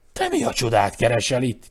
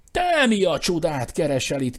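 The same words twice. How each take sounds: First: Louder, demanding exclamation; shouted. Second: Higher and louder cry, stress on te; shouted. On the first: Claude confronting his brother at the bed, loud. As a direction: call out in indignant surprise. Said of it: "kiáltotta". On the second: Eustace shouting back at Claude, higher and loud. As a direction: fling the question back, pitched up. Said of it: "kiáltotta Eustace". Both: A narrator's reading.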